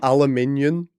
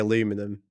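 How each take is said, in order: First: The word is said with five syllables. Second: The word is said with four syllables. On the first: The speaker calls it right. "It is literally spelled aluminium" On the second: The speaker calls it wrong. "you say aluminum, which is just like, you're just missing a letter"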